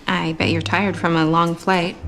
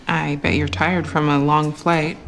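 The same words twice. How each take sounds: The two takes are said the same way.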